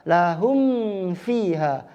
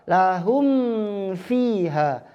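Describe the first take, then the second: Both takes have the same delivery.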